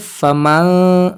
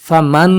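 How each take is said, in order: First: The n is hidden as a nasal sound only. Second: The n is pronounced fully with the tongue touching. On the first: The speaker calls it right. "नाक में आवाज मैंने छुपा दी है" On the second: The speaker calls it wrong. "मैंने फमन फमन नहीं किया"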